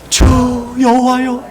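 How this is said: It is cried out with deep grateful emotion.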